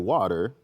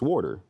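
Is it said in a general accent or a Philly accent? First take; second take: general; Philly. First: It is said in a general American accent. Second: It is said in a Philly accent.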